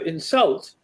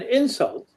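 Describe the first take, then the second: First: The stress is on the second syllable. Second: The stress is on the first syllable. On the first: It is a verb meaning to offend someone. "insult is a verb, to insult somebody. And the stress is on the second syllable" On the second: It is a noun meaning an offensive remark. "an insult is a noun, and the stress there is on the first syllable"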